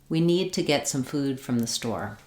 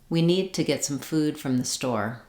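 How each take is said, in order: No difference in how they are said.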